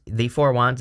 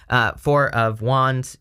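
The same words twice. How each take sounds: First: Said in the usual way. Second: "Four of Wands" drawn out slowly. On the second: Acted. Naming a tarot card.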